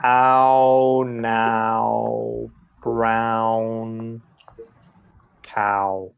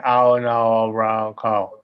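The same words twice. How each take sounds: First: Ow, now, brown cow with the mouth clearly moving through each ow; careful tongue twister. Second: Ow, no, brown cow mumbled with the ow flattened and the mouth barely moving; mock the wrong way, Ow, no, brown cow, lips lazy. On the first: Shown as a demonstration. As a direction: stretch every ow in Ow, now, brown cow, lips rounding at the end. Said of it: "by doing this fun little tongue twister". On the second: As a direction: imitate a student saying brown cow with a stiff, unmoving mouth. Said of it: "No, right? We have to move the mouth".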